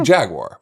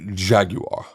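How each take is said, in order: First: It is said with an American pronunciation. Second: It is said with a British pronunciation. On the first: "say it the Americanized way" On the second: "which is the British inflection of the word Jaguar"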